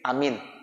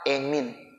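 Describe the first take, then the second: First: The first vowel is an open 'a' sound. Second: The first vowel is fronted toward 'e'. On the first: "Ada yang modelnya dipendekin" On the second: "Ada lagi ya pakai imalah"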